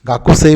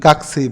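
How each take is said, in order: First: The u after k is fully pronounced. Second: The u after k is dropped.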